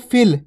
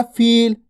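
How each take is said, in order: First: फिल with a quick, short i. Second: फील with a held, long ee. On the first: Teacher showing the small vowel sign, फिल with a brief i. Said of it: "छोटी ई की मात्रा". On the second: Teacher showing the big vowel sign, फील with ee held long. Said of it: "बड़ी ई की मात्रा". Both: Shown as a demonstration.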